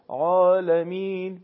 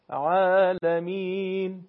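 First: The long a vowel is heavy and full. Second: The long a vowel is light and thin. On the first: The speaker calls it wrong. "نمیشه عالمین، به این شکل تلفظ نمیشه" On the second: The speaker calls it right. "این الف مدی به صورت درشت و پرحجم تلفظ نمیشه"

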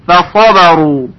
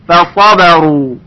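The two takes are said the same way.

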